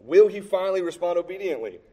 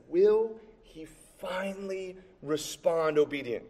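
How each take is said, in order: First: Said in the usual way. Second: Slow, higher, held-back question; softly dragged-out, suspenseful wondering; drawn-out suspense. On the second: Real, not acted. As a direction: stretch each word out as if still waiting.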